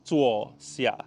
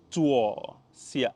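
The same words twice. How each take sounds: First: Zuo xia said clearly for a learner; Mandarin demo. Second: Zuo xia repeated for the learner; Mandarin repeat. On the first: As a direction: model zuo xia slowly. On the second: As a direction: say Zuo xia again, clear. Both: Shown as a demonstration. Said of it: "sit down in Mandarin is called".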